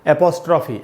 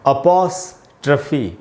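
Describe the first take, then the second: First: The word begins with an 'e' vowel sound. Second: The word begins with an 'a' vowel sound. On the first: This is how people commonly read it on their own. The speaker calls it wrong. "ऐसे एपोस्ट्रॉफी ऐसे करके पढ़ लेते हैं" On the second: This is the proper pronunciation of the word. The speaker calls it right. "इसका pronunciation है अपॉस्ट्रफी"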